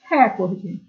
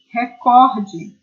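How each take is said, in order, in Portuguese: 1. A tônica está na primeira sílaba. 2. A tônica está na segunda sílaba. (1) "essa palavra seria proparoxítona e nós pronunciaríamos recorde" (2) "ela é uma paroxítona terminada em E"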